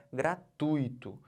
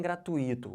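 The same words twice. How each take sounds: First: "gratuito" slowly as gra-TUI-to; stress on TUI. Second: "gratuito" as gra-tu-Í-to, I split off; wrong stress on I. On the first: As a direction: make TUI one strong syllable in "gratuito". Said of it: "o tui, como sílaba tônica". ("gratuito" devagar, tônica no TUI) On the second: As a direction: lean on a separate I in "gratuito". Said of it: "não falem gratuito". ("gratuito" errado, com tônica no Í) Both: Shown as a demonstration.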